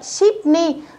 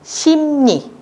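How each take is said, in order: First: The first syllable ends in a p sound. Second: The first syllable ends in an m sound. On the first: The speaker calls it wrong. "ship ni người ta sẽ đọc thành sim nhỉ" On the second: The speaker calls it right. "người ta sẽ đọc thành sim nhỉ"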